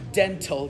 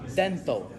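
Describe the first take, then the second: First: The consonants are strongly over-enunciated. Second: The consonants are light and not over-enunciated. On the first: The speaker calls it wrong. "you would not say dental" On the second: The speaker calls it right. "you would say dental"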